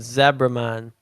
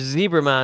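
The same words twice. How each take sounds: First: Zebra is pronounced the non-American way. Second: Zebra is pronounced the American way.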